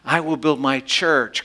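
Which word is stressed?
church. The stress is on "church".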